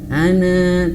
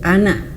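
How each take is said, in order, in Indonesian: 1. Vokal akhirnya dibaca panjang. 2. Vokal akhirnya dibaca pendek. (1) "jangan panjang. Ana tidak" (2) "tapi anak pendek saja"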